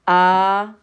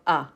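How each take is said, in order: First: The vowel sound is held long. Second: The vowel sound is cut short. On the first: "Long vowel" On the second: "short vowel"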